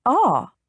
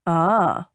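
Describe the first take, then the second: First: "Ah?" pitched up as a question; suspicious "Ah?". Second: "Ah." lowered, as a statement; knowing "Ah.". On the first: A narrator's reading. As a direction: throw "Ah?" back higher, suspiciously. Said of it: "She frowned suspiciously". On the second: Acted. Suitor's knowing reply, voiced lower.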